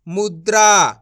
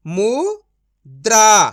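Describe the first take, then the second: First: मुद्रा joined into one word, loud; blended whole word. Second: मुद्रा broken as "mu... draa", long pause, loud; syllable by syllable. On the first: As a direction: read मुद्रा in one go without a break. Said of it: "तो मिलके बन जाएगा". (मुद्रा को जोड़कर एक साथ बोलें) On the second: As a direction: sound out मुद्रा very slowly in two parts. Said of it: "direct मात्रा का उच्चारण करके पढ़ेंगे". (मुद्रा को "मु... द्रा" तोड़कर धीरे बोलें) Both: Shown as a demonstration.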